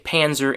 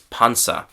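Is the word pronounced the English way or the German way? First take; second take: English; German. First: It is pronounced with English sounds. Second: It is pronounced with German sounds. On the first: "in English, we just, as I said, we say Panzer" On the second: "German pronunciation, sorry, is Panzer"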